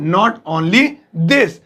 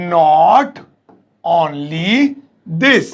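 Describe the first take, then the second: First: Said in the usual way. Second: Each word set apart, slow. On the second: Shown as a demonstration. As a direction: teach it word by word. (एक-एक शब्द धीरे-धीरे) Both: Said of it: "इतना ही नहीं".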